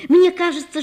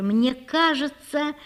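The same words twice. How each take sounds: First: High, rising rush of feeling; eager outburst. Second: Dreamy confession. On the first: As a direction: blurt it out with fresh fervour. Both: A narrator's reading. Natasha confesses her love.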